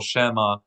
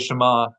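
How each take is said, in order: First: The stress falls on a shifted syllable. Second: The stress falls on the expected syllable. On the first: It could sound like something other than hear. The speaker calls it wrong. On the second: Hear, O Israel. The speaker calls it right.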